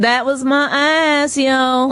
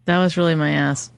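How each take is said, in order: First: Slow, higher street voice; Black accent. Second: Southern accent. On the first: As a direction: drawl it out with attitude. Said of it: "can a black person please call". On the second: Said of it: "you start talking Southern". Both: Shown as a demonstration.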